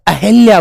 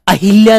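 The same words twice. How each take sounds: First: The vowel after 'ah' is short. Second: The vowel after 'ah' is long. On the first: The speaker calls it right. "शब्द अहिल्या बोला जाता है" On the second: The speaker calls it wrong. "अहिल्या नहीं बोला जाता"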